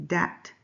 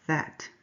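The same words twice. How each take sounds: First: DAT with a hard d in place of th; Spanish-accented th. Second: Said in the usual way. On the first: Shown as a demonstration. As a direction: say "dat", the th turned into a d. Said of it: "Mister Alvarez says dat instead of that". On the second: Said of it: "instead of".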